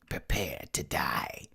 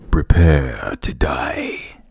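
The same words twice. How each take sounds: First: It is said in a plain voice. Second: It is said in a Shao Kahn voice.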